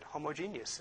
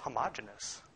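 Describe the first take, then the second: First: The word has the electromagnetics pronunciation. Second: The word has the everyday milk pronunciation. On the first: This is the form used in electromagnetics. "we pronounce it homogeneous in electromagnetics" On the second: This is the everyday form used for milk. "when it comes to milk, it's homogeneous"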